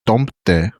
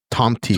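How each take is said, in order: First: Tomte with a final "teh"; Scandinavian Tomte. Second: Tomti with a Spanish final "tee"; Spanishified Tomti. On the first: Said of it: "I literally Spanify". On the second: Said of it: "Spanishified that". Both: Shown as a demonstration.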